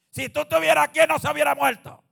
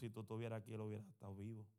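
First: It is said rudely, like Martha. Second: It is said humbly, like Mary.

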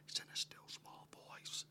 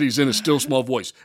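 First: It is whispered. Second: It is spoken aloud.

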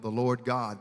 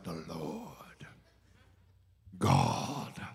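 First: It is said in a plain conversational voice. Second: It is said in a dramatic preacher's voice.

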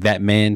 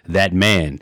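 First: It is said in his normal voice. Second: It is said in a put-on DJ voice.

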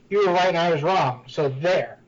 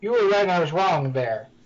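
First: There is a pause before 'so there'. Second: It runs on without a pause before 'there'.

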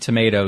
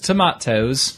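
First: It is said with an American accent. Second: It is said with a British accent.

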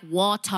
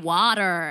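First: It is said in a non-American accent. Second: It is said in an American accent.

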